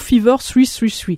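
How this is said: The name is said with English pronunciation. "si en anglais, on prononce"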